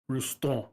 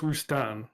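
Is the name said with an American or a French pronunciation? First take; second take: French; American. First: The name is said with a French pronunciation. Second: The name is said with an American pronunciation. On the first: The speaker calls it right. "The absolute correct pronunciation is French" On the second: The speaker calls it wrong. "That's actually the bastardized American way of saying it"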